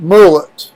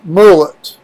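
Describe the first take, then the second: First: The word is pronounced a jokey, unusual way. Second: The word is pronounced a jokey, unusual way.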